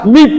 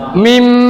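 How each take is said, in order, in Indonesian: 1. Kata ini berakhir dengan bunyi b. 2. Kata ini berakhir dengan bunyi m. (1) "tidak dibaca mib" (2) "nun dan ba diganti dengan mim mati"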